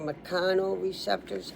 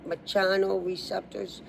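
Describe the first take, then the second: First: The 'ch' is said as a 'k' sound. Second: The 'ch' sounds like the start of 'chair'.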